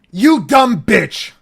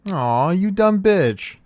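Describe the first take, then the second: First: High, loud, slow snarling insult; angry insult. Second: Higher, slow playful tease; affectionate teasing. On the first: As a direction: spit it out in real anger. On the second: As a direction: say it fondly, like a joke between friends. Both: Shown as a demonstration. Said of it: "For example".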